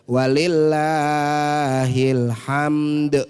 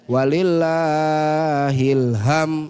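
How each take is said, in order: First: The last word ends with a 'd' sound. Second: The last word ends without a 'd' sound. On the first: The speaker calls it right. "Jadi ada dalnya" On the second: The speaker calls it wrong. "ini salah"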